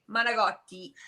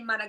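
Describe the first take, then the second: First: It is said in a standard Italian way. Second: It is said in a New York Italian-American way. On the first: "if I'm in Italy, I would say" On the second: "if I'm in New York, I would say"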